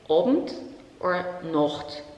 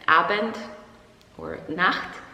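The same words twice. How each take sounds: First: The vowel is an Austrian O-like sound. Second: The vowel is a standard German A sound.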